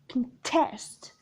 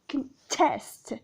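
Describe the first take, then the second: First: The stress is on the second syllable. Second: The stress is on the second syllable.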